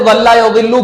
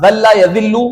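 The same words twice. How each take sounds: First: जल्ला said with a heavy d sound, raised and louder; the dad sound in जल्ला; teaching जल्ला with dad; dad letter. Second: The zal sound in जल्ला; teaching जल्ला with zal; zal letter. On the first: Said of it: "दाद से जल्ला यजिल्लु". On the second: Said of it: "जाल है". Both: Shown as a demonstration.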